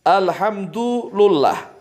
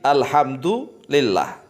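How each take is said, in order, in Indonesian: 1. Huruf d memakai u dan huruf l memakai u. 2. Huruf d memakai u dan huruf l memakai i. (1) "bidhammid dali wal lami, dengan dhammanya dal dan lam" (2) "Ini yang disepakati"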